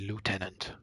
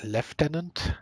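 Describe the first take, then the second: First: It is said with a non-British pronunciation. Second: It is said with a British-style pronunciation. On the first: This is how the speaker normally says it. "I always say lieutenant" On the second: Other people say it this way. "they pronounce it like lieutenant. Is that like a, a British thing"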